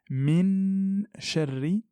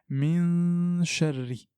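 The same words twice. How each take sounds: First: The n is fully pronounced with the tongue. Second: The n is hidden, leaving only nasal sound. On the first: The speaker calls it wrong. "Je ne dis pas min sharri" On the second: The speaker calls it right. "mais je dis min sharri. Il ne faut pas que ma langue touche le palais"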